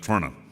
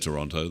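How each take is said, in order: First: The vowels are dropped, squeezing the word short. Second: All the vowels are pronounced fully. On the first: This is how locals say it. "They they remove all the vowels and they go Toronto" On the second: This is how outsiders say it. "They don't say Toronto"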